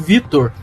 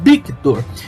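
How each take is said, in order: First: The name begins with a V sound. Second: The name begins with a B sound. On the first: "meu nome é Vitor" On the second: "ele falava Victor"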